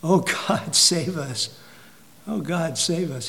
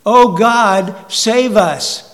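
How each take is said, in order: First: Soft, hushed retelling of a plea; a preacher softly echoing the cry after the towers fell; quiet plea. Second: Loud, pleading cry for rescue; a frightened crowd crying out for God to save them; desperate cry to God. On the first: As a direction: murmur the prayer under your breath. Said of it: "what did people say?". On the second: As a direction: shout it like people caught in a tornado. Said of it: "people start screaming what?". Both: Retold or imitated.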